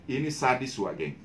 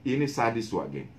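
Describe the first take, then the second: Both takes have the same delivery.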